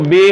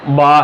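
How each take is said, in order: First: The letter name ends in an 'e' vowel. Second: The letter name ends in an 'a' vowel. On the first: This is the common local way of saying it. The speaker calls it wrong. "हमारी जो आम तौर पर बोला जाता है इसको बे हम बोलते हैं" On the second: This is the true Arabic name. The speaker calls it right. "ये जो सही इसका नाम है अरबी में वो बा है"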